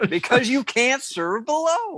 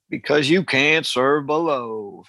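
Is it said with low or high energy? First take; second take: high; low. First: It is said with high energy. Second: It is said with low energy.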